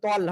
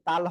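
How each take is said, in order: First: The vowel is a rounded 'o' sound. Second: The vowel is an open 'a' sound. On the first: The speaker calls it right. "তল হবে" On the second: The speaker calls it wrong. "তাল হয় না"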